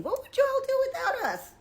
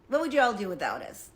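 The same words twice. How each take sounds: First: Much higher, squealed challenge; incredulous challenge. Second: Said in the usual way. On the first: Real, not acted. Challenging her audience, high incredulous question. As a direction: fling the question up high in disbelief.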